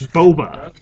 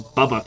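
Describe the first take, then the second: First: The first vowel sounds like the one in 'boat'. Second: The first vowel sounds like the one in 'bubble'. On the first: The speaker calls it right. "It's Boba" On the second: The speaker calls it wrong. "you're the same one who said Bubba Fett"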